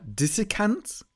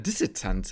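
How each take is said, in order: First: The middle c is a hard k sound. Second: The middle c is a ts sound. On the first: "ob man das C jetzt hart ausspricht" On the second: "oder nicht"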